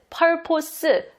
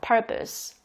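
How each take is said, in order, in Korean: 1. 두 번째 음절은 온전한 'po' 모음이에요. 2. 두 번째 음절은 약하고 'uh' 모음이에요. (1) "P-O-S이니까 purpose" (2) "강세가 펄에 들어가기 때문에 이렇게 펄이 크게 발음되고 나머지는 작게 발음돼요. 그리고 약간 포스보다는 어 발음이 나요"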